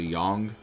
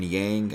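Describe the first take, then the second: First: The vowel sounds like the one in 'long'. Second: The vowel sounds like the one in 'cat'. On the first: This is how the voiced version pronounces the name. "is actually Yong" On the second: This is the name as the speaker always knew it. "as I always knew him"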